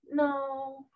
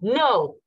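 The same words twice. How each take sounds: First: It is said weakly and softly. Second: It is said strongly and forcefully.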